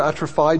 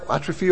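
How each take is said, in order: First: "atrophy" with the last syllable as "fye"; atrophy ending in -fye. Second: "atrophy" with the last syllable as "fee"; atrophy ending in -fee. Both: Shown as a demonstration. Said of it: "depending on how you pronounce it".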